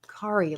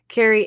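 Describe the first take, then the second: First: The name rhymes with Atari. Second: The name does not rhyme with Atari. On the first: The speaker calls it right. "like Atari" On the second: The speaker calls it wrong. "I did it again"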